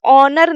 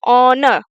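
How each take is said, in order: First: ऑनर said with the r clearly sounded at the end, onor; ऑनर pronounced wrongly, rolling the r; wrong pronunciation. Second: ऑनर ending on the n with the r silent, onn; ऑनर said right, no r at the end; correct pronunciation. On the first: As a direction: sound the final r in ऑनर as the mistake to avoid. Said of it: "लेकिन हम इसको ऑनर नहीं पढ़ेंगे". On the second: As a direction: stop at the n in ऑनर and drop the r. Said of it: "यहाँ आके stop हो जाएंगे". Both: Shown as a demonstration.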